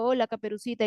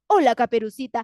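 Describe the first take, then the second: First: It is said in the narrator's plain, flat voice. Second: It is said in a changed, put-on character voice. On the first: The speaker calls it wrong. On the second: The speaker calls it right.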